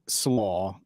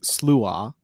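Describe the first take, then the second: First: The name is said like 'slaw'. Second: The name is said like 'sloo-ah'. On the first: This is how the band actually said it. The speaker calls it wrong. "is the way we pronounced it" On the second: This is the proper pronunciation. The speaker calls it right. "supposed to be pronounced Slua"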